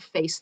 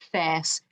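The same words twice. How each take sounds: First: The vowel glides as a diphthong. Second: The vowel is a single, unchanging pure vowel. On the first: This is how it sounds today. "not face. The face diphthong that we have now" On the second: This is how it sounded in the seventeenth century. "the so-called face diphthong"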